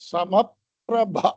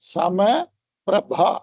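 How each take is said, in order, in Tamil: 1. இரண்டு பகுதிகளும் சேர்த்துச் சொல்லப்படுகின்றன. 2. இரண்டு பகுதிகளும் தனித்தனியாகச் சொல்லப்படுகின்றன.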